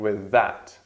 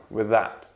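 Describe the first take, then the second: No difference in how they are said.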